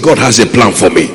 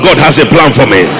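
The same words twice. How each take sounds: First: It is said at normal volume. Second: It is said loudly.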